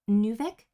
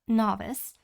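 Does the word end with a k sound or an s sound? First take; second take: k sound; s sound. First: The word ends with a k sound. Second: The word ends with an s sound. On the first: The speaker calls it wrong. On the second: The speaker calls it right.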